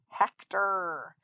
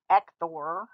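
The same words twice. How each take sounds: First: The last syllable has a reduced 'er' sound. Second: The last syllable has a full 'or' vowel. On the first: The speaker calls it right. "it says or, er, Hector" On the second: The speaker calls it wrong. "we don't pronounce this Hector"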